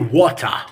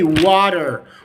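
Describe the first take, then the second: First: It is said with no R sound at the end. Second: It is said with a soft D and final R. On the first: "in the British accent we can say water" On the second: "in the American accent, we can say water, water, slight D"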